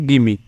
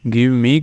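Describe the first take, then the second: First: The words run together into one short word. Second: Two separate words with a full vowel in each. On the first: The speaker calls it right. "आप use करेंगे गिमी" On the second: The speaker calls it wrong. "गिव मी की जगह"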